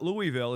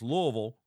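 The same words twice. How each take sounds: First: It is pronounced the way outsiders say it. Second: It is pronounced the way locals say it. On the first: The speaker calls it wrong. "It's not Louisville" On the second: The speaker calls it right. "that's how you say it when you're down there"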